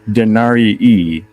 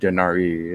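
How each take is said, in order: First: The word ends with an extra long ee sound. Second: The word ends with a single vowel sound. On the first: The speaker calls it right. "You you pronounce both I's" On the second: The speaker calls it wrong. "you said Denari"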